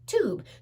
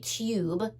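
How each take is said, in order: First: The vowel sounds like a plain 'ooh'. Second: The vowel sounds like the word 'you'. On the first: The speaker calls it right. "we say t oob, tube" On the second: The speaker calls it wrong. "We don't say tube"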